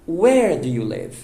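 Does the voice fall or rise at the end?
falls. The voice falls at the end. The speaker calls it right. "Não"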